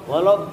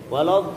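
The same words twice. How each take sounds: The two takes are said the same way.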